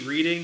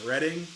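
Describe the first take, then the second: First: The first vowel sounds like in 'reed'. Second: The first vowel sounds like in 'red'. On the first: The ordinary word as written. "Every time you see reading" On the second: The name of the railroad. "you pronounce it as reading"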